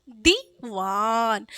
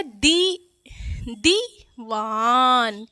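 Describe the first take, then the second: First: Diwan with a long drawn दी; patient slow repeat; slow sound-out. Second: Diwan said very slowly; drawn-out teaching word; slow sound-out. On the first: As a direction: stretch each syllable of Diwan. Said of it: "क्या?". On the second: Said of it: "इसको धीरे से उच्चारित कर रहे हैं ना". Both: Shown as a demonstration.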